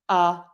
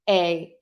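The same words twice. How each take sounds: First: The vowel is a short relaxed schwa. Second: The vowel is full and unreduced. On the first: The speaker calls it right. "I'm going to use that schwa" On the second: The speaker calls it wrong. "I'm not going to say"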